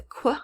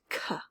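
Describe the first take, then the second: First: QU as "kwuh"; k gliding into w, "kwuh"; isolated qu sound. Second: K as a bare "kuh"; short "kuh", no glide; isolated k sound. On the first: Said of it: "do you hear the Q U making". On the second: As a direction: sound out K alone with no w. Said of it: "or just k". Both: Shown as a demonstration.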